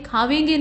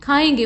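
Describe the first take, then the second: First: खावेंगे with a v sound; wrong form. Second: खाएंगे with no v sound; correct form. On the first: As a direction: say खावेंगे as khaavenge. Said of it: "खावेंगे नहीं बल्कि". (गलत खावेंगे, व के साथ) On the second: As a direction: say खाएंगे as khaaenge. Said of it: "बल्कि". (सही खाएंगे, बिना व के) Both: Shown as a demonstration.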